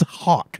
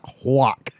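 First: The vowel comes before the W sound. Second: The W sound comes before the vowel. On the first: The speaker calls it right. "It's H-A-W-K" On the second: The speaker calls it wrong. "not H-W-A-K"

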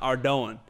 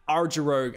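First: The word ends with a 'doan' sound, like donut. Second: The word ends with a 'rogue'-like sound. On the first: The speaker calls it right. "apparently it's pronounced Ardoan. Like a donut" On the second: The speaker calls it wrong. "That's how I used to pronounce it"

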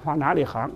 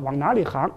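Both takes have the same delivery.

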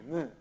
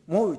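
First: The vowel is a single pure 'u'. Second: The vowel glides from 'o' to 'u'. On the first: The speaker calls it right. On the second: The speaker calls it wrong. "モウじゃなくて"

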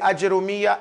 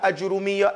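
First: The j is followed by an a vowel. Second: The j is followed by a u vowel. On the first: "with a Jim Fatha" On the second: "Jim Dhamma"

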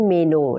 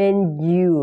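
First: It is said with a Thai-style pronunciation. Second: It is said with an English-like pronunciation. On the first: The speaker calls it wrong. "ไม่ใช่เมนูนะคะ" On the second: The speaker calls it right. "อันนี้ออกเสียงเป็น"

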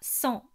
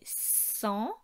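First: The s sound at the start is short. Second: The s sound at the start is drawn out. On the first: Ordinary speech. "je ne dirais donc pas" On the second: Speaking like a snake-tongued character. "ils insistent sur les s"

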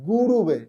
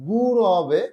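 First: The middle syllable is pronounced ru. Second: The middle syllable is pronounced ra. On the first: The speaker calls it wrong. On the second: The speaker calls it right. "এটা হবে গুরবে"

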